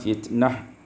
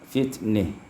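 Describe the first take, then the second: First: The final vowel is a plain open a. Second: The final vowel is tilted toward i.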